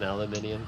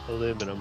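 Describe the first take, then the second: First: The word is said with five syllables. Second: The word is said with four syllables.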